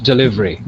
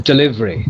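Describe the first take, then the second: Both takes have the same delivery.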